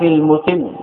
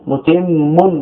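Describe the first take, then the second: First: المتم with a single, undoubled final م; light final mim. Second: متم with the final م doubled and held; doubled final mim. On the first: Teacher shows students the lightened mim in المتم, pronounced lightly. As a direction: say المتم without doubling the last م. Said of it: "بتخفيف الميم". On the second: Teacher shows the original form with tashdid, متم with doubled mim. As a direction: lean on a long, geminated م ending متم. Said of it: "بالتشديد". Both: Shown as a demonstration.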